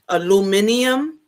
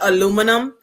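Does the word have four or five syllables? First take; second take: five; four. First: The word is said with five syllables. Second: The word is said with four syllables. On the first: This is the English way of saying it. The speaker calls it wrong. "it doesn't feel like natural saying it that way" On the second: This is the American way of saying it. The speaker calls it right. "I'm sticking with aluminum"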